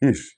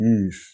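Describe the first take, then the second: First: The vowel is short, like 'ish'. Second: The vowel is long, like 'eesh'. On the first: The speaker calls it right. "ഇഷ് എന്ന ശബ്ദത്തിൽ" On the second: The speaker calls it wrong. "Not ഈഷ്"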